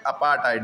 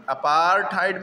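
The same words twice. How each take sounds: First: अपार्थाइड lower, as apaa-taid; अपार्थाइड with long aa straight into hard T, lower pitch; R dropped. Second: अपार्थाइड stretched on paar, pitch raised; R sounded. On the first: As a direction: say अपार्थाइड without the R. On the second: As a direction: say अपार्थाइड with a clear R before TAID. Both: Shown as a demonstration. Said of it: "भी कह सकते हैं".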